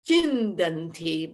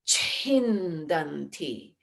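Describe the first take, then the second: First: The first consonant has no breath after it. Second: The first consonant has a breath after it. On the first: The speaker calls it wrong. "it's not chindanti" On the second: The speaker calls it right. "there's a breath added to it"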